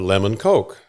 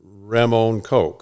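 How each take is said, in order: First: The first word begins with a clear L sound. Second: The first word begins with an R-like sound.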